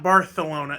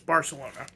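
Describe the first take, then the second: First: The 'c' sounds like 'th', a lisp. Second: The 'c' sounds like a plain 's'. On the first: This is how people in Spain say it. The speaker calls it wrong. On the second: This is how the speaker thinks it should be said. The speaker calls it right.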